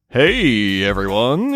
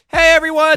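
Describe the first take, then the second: First: It is said in a smooth, suave way. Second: It is said loudly, almost yelled.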